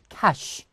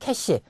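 First: The word ends with an sh sound. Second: The word ends with an s-like sound. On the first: The speaker calls it right. "정확한 발음은 캐시" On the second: The speaker calls it wrong. "보통 우리가 캐시라고 하죠"

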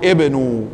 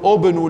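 First: The word begins with an i vowel. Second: The word begins with a u vowel. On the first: The speaker calls it right. "ستقول ابنوا" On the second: The speaker calls it wrong. "فهل ستكون ابنوا له بنيانا؟ ليس صحيحا"

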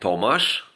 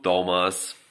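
First: The name is pronounced the Polish way. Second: The name is pronounced the English way. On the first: "moje imię Tomasz po polsku" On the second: "a po angielsku Tomas"

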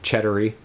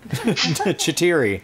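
First: The name begins with a 'ched' sound, like cheddar. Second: The name begins with a 'chit' sound, not cheddar. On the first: The speaker calls it wrong. "I always get it wrong and say it like cheddar or something" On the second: The speaker calls it right. "There we go"

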